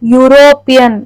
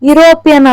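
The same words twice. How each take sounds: First: The word begins with a Y sound. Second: The word begins with a plain vowel sound. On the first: The speaker calls it right. "ವೈ ಯು ಯು sound ಬರುತ್ತೆ" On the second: The speaker calls it wrong. "ಯುರೋಪಿಯನ್ ಅನ್ನಲ್ಲ"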